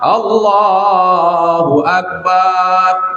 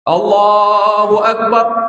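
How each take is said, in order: First: The vowel after 'b' is drawn out long. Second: The vowel after 'b' is short. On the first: God is a big drum. The speaker calls it wrong. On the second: God is the greatest. The speaker calls it right.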